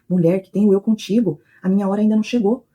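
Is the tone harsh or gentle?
harsh. It is said in a harsh, rebuking tone.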